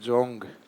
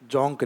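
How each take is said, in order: First: The name ends with a g sound. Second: The name ends with a k sound. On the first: The speaker calls it wrong. "ये जोंग गए वाला" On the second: The speaker calls it right. "कै में pronunciation करना है इसका"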